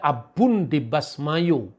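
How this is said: The last word ends with an o vowel. This is the western reading. "wilayah barat, wilayah Israel itu dibaca"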